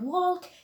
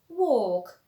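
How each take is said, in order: First: The L sound is pronounced in the word. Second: The L is silent and the vowel is longer. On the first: The speaker calls it wrong. "you do not say talk and walk" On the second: The speaker calls it right. "you say walk and talk"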